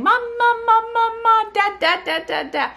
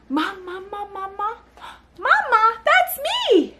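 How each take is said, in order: First: High, loud repetitive babble; babbling baby. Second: Delighted parent reply. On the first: Retold or imitated. Mother imitates babies babbling to nobody, high babble. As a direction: rattle off syllables like a baby. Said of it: "if they're saying". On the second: Shown as a demonstration. Parent answers babbling as if talking to her, excited. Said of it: "And you say".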